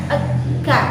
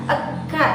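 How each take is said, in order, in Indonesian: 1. Bunyi vokal muncul sebelum bunyi k. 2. Bunyi vokal muncul sebelum bunyi k.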